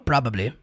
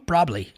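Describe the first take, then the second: First: All three syllables are said clearly in full. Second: The syllables are run together into a shorter form. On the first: "Aqui ele fala probably" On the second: "Ocorre essa junção e é normal"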